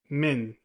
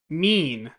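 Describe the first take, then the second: First: The vowel is short, as in min. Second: The vowel is long, as in mean. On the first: The speaker calls it wrong. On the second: The speaker calls it right.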